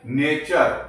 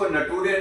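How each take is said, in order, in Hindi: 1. इसका अंत 'cher' ध्वनि से होता है। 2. इसका अंत 'too-ray' ध्वनि से होता है। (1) "इसको हम क्या पढ़ते हैं" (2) "इसको नटूरे नहीं कहते हैं"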